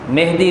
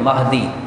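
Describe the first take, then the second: First: The first syllable is pronounced 'meh'. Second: The first syllable is pronounced 'mah'. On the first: The speaker calls it wrong. "अक्सर लोग इस लफ्ज़ को गलत पढ़ते हैं, मेहदी लफ्ज़ कहते हैं" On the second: The speaker calls it right. "मीम के ज़बर के साथ"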